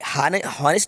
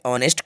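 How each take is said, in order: First: The word starts with an h sound. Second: The word starts with a vowel, no h. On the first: The speaker calls it wrong. "हॉनेस्ट नहीं बोलेंगे" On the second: The speaker calls it right. "ऑनेस्ट को आ से बोलेंगे"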